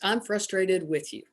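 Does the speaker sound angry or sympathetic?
sympathetic. It is said in a sympathetic, commiserating tone. The situation was frustrating for both people. "meaning it had been a very frustrating scenario"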